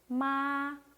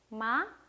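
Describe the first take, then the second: First: The pitch stays high and level throughout. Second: The pitch rises smoothly toward the end. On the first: "이거는 뭔가 쭉 일직선으로 가는 느낌" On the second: "이거는 올라갔다라는 느낌"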